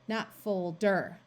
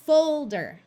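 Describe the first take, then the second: First: The stress is on the second syllable. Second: The stress is on the first syllable. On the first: The speaker calls it wrong. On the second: The speaker calls it right. "we are going to accent the first syllable"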